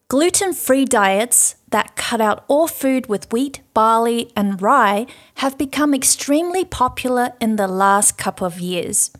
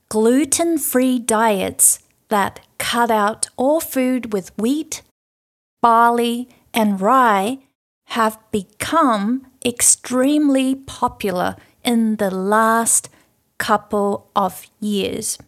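First: It is read at normal speed. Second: It is read a little more slowly.

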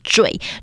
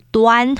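First: The syllable is pronounced zhui. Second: The syllable is pronounced duan. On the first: The speaker calls it right. "那个字要念惴" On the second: The speaker calls it wrong. "或者是端，就是端正的端"

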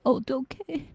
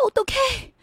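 First: It sounds reproachful, like 'how could you'. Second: It sounds worried, like 'what do I do'.

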